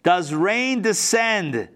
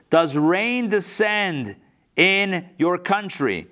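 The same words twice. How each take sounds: First: Very slow, drawn out question; slow pointed question. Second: Very slow, deliberate question; slow pointed question. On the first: King questioning Alexander, slow pointed question. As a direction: stretch every word of the question. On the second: King pressing Alexander, slow deliberate question. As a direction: draw out the whole question. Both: Acted. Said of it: "Listen to this".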